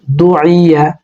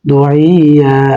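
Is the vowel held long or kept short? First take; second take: short; long. First: The vowel is kept short, without stretching. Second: The vowel is stretched out long. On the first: The speaker calls it right. "টান পড়বে না, উচ্চারণে টান নেই।" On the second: The speaker calls it wrong. "অনেকে পড়ে না এভাবে, হবে না।"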